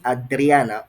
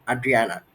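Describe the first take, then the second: First: "Adriana" with a pronounced, rolled R; strong R. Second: "Adriana" with a smooth, untrilled R; soft English R. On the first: Tutor checking student's name, "Adriana" with a strong rolled R. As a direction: sound out the R firmly in "Adriana". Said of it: "the R is very profound". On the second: Tutor offering other version of name, "Adriana" with soft English R. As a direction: glide lightly through the R in "Adriana". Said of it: "is it Adriana or Adriana?". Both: Shown as a demonstration.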